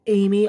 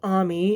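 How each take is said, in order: First: The name begins with an 'ay' sound. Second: The name begins with an open 'ah' sound. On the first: This follows the spelling of the name. "So I'm just gonna say Amy" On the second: This is how the show pronounces it. "They pronounce it as Army"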